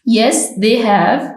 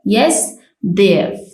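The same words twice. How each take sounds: First: The word have is said in full. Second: The word have is reduced to a v sound.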